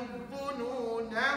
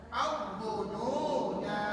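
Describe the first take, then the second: First: The final vowel is short, joined to the next word. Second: The final vowel is long, with a stop after. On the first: The reciter continues into the next verse. "na tu dibaca pendek" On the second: The reciter stops at the end of the verse. "kalau berhenti"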